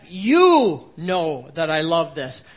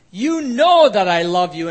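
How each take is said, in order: First: "You" stretched and pressed, slow emphatic line; stress on YOU. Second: Said in the usual way. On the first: Shown as a demonstration. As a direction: lean hard on the first word "You", then go on slowly. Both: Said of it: "you" is emphatic".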